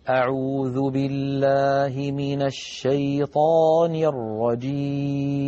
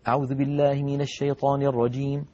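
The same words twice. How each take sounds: First: It is recited slowly and calmly. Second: It is recited very fast.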